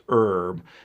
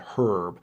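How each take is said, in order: First: The word starts without an H sound. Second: The word starts with an H sound. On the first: This is the original pronunciation. "originally, when it came over to England, it was pronounced herb" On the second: This is the newer pronunciation. "they started pronouncing the H and said herb"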